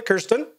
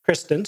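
First: "Kirsten" with the r after the vowel, KUR-stən; mistaken name pronunciation. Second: "Kristen" with the r before the vowel, KRIS-tən; corrected name pronunciation. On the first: Host greeting an attendee by a misread name, "Kirsten" as KUR-stən. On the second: Host correcting an attendee's name, "Kristen" as KRIS-tən. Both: Real, not acted. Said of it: "Kristen, sorry".

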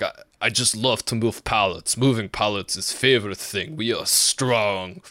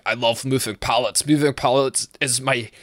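First: Put-on light Russian accent, proud and simple; mock Russian accent. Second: A slip into a Scottish lilt while trying for Russian; a Scottish-sounding stab at a Russian coworker; accidental Scottish accent. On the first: Imitating coworker Sergey who loves moving pallets, light Russian accent. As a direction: imitate a cheerful Siberian coworker. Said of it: "let me get my Russian". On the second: Retold or imitated. Imitating coworker Sergey but it comes out Scottish. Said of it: "that's Scottish".

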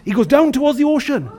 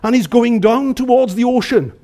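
First: Mildly heightened storytelling; more dramatic fall. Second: Said in the usual way. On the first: Shown as a demonstration. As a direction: raise the drama of the plunge a touch. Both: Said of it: "it was worse than that".

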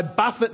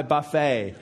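First: "buffet" with first-syllable stress and a sounded T; "buffet" rhyming with "tuffet". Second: "buffet" like the meal, silent T; "buffet" ending in a long AY. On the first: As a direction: say "buffet" as BUFF-it. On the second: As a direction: say "buffet" as buff-AY. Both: Shown as a demonstration. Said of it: "That's not "I buffet".

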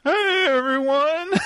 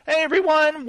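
First: Mock voice crack. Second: High greeting that cracks; voice cracking. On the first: Host mocking his own greeting to listeners, cracked voice. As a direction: exaggerate the cracking voice for a joke. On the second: Real, not acted. Host welcoming listeners to the show, voice cracking. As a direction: let the voice slip upward as it greets. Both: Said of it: "my voice kinda cracked there".

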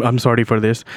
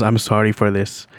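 First: Said in the usual way. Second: Lightly imitated Indian accent; a low-key Indian-accented apology. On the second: Man apologizing to a stranger in the elevator, mild Indian accent. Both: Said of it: "he says it in an Indian accent".

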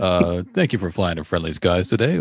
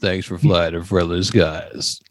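First: Quicker, brighter opening greeting; captain opening the announcement, brisk; pilot greeting. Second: Lower, slow, drawn-out sign-off; pilot sign-off. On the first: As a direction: toss it off as the cheery first line. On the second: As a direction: stretch it out like a lazy captain. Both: Pretend. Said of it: "this is your pilot".

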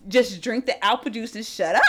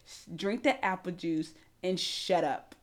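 First: Mild, easygoing imitated order; casual, friendly-intended imitation; being nice. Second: Very low, slow, soft order; hushed, unhurried imitation of a calm man; zen coworker. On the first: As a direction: say it kindly, with no edge. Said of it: "he was being nice". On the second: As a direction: take your time and quietly shut it down. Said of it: "He's very zen".

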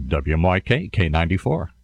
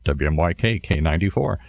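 First: Low radio-announcer voice; radio station ID. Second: Deliberately lowered radio DJ voice; voice brought down. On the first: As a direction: give the call letters down low, like a DJ. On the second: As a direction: drop into a low station-ident voice. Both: Shown as a demonstration. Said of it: "have to get my voice down here".

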